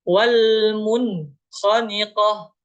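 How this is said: There is a brief stop after the n. The speaker calls it wrong.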